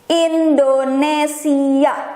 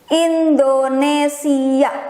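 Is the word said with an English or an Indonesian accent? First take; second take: Indonesian; Indonesian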